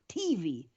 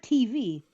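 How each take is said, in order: First: The stress is on the T. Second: The stress is on the V.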